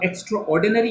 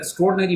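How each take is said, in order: First: It is said as separate 'extra' plus 'ordinary'. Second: It is said as one blended, contracted word. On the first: The speaker calls it wrong. "मैंने नहीं बोला" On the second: The speaker calls it right. "मैंने बोला है"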